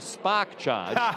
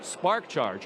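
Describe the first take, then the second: First: It is said in a local Boston accent. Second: It is said in a plain general accent.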